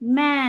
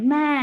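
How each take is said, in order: No difference in how they are said.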